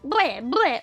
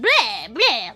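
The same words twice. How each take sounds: First: It is said in a plain everyday voice. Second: It is said in a put-on vampire accent.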